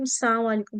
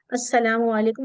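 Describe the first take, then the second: First: السلام said as as-saam, without the l sound; السلام علیکم mispronounced on purpose as assaamu alaikum; twisted greeting. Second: Said in the usual way. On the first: Shown as a demonstration. Teacher shows students the twisted السلام علیکم. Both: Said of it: "سام بولتے تم پہ موت ہو".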